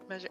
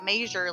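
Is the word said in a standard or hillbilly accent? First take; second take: standard; hillbilly. First: It is said in a standard accent. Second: It is said in a hillbilly accent.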